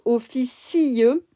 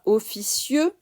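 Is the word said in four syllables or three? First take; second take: four; three. First: The word is said in four syllables. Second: The word is said in three syllables. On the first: The speaker calls it right. "on prononce officieux Cornac en quatre syllabes" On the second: The speaker calls it wrong. "on ne prononce pas officieux, trois syllabes"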